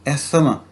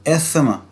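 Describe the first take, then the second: Both takes have the same delivery.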